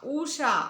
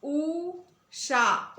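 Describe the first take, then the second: First: Said in the usual way. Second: ऊषा with the long ऊ held very slowly; stretched demo word. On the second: Shown as a demonstration. Teacher to young pupils modelling long ऊ, slowly drawn out. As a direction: draw out the ऊ in ऊषा, slow and high. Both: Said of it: "उन्हें किस प्रकार बोलेंगे".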